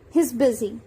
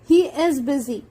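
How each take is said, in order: First: He and is merge into one syllable. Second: The words he and is are fully separate.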